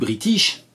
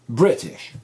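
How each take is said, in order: First: The stress is on the second syllable. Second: The stress is on the first syllable. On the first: The speaker calls it wrong. "ça c'est une prononciation française, mauvaise" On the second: The speaker calls it right. "Si vous pensez bien à accentuer Brit"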